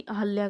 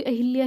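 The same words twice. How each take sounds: First: "अहल्या" में ह के बाद कोई इ नहीं; अह-ल्या, बिना इ के; शुद्ध उच्चारण अहल्या. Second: "अहिल्या" में ह पर छोटी इ जोड़कर; अहिल्या, इ की मात्रा साफ़ बोलें; गलत उच्चारण अहिल्या. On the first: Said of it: "उच्चारण भी अहिल्या ही करते हैं". (शुद्ध उच्चारण: अहल्या) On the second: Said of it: "ना कि अहल्या करते हैं". (गलत उच्चारण: अहि-ल्या) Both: Shown as a demonstration.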